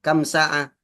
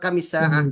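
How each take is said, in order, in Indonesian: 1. Kam langsung menyambung ke sa'ah tanpa vokal. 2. Vokal i menghubungkan kam ke sa'ah. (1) "berapa jam" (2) "dikasrohkan supaya dibaca wasol"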